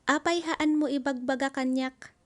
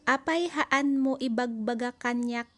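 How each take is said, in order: First: It is said at normal speed. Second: It is said slowly.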